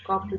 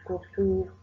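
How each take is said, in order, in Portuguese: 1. É pronunciada do jeito português. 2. É pronunciada do jeito japonês.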